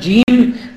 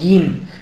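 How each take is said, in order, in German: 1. Der Buchstabenname wird standardmäßig ausgesprochen. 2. Der Buchstabenname wird ägyptisch ausgesprochen. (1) "anstatt Jim" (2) "Bei den Ägyptern ... die sagen Ge, Gim"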